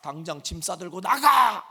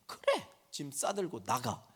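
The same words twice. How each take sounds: First: Louder, cut-off scolding shout; mother ordering the child out, loud; mom's yell. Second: Softer, sulky mock repeat; teen sarcastically echoing mom, sulky; sulky sarcastic echo. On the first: Retold or imitated. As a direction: bark it as the bare command. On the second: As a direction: throw her words back with a sneer. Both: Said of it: "그 단어만 딱 잘라서 얘기하면".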